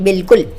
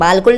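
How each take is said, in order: First: The first vowel is a short 'i' sound. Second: The first vowel is a long 'aa' sound. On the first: The speaker calls it right. "बल्कि हम इसको पढ़ेंगे" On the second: The speaker calls it wrong. "इस अलिफ को पढ़ते हैं जो कि गलत है"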